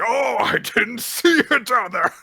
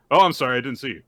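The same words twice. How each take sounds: First: Loud, high, exaggerated taunt; hammed-up bully pretending surprise; mocking fake apology. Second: Sincere, slightly startled sorry; earnest, unforced acted apology; legit apology. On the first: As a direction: sneer it big, then cackle. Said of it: "when he was doing it, was like". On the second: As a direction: apologize simply, as an honest accident. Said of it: "Very legit".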